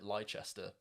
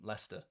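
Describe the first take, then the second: First: The name is said with an American pronunciation. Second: The name is said with a local pronunciation.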